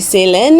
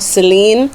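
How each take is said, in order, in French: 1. La dernière syllabe a une voyelle 'è' courte. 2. La dernière syllabe a une voyelle 'ee' plus longue. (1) "en français, avec la phonétique, ça fait Célène" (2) "en anglais fait un son un peu plus long"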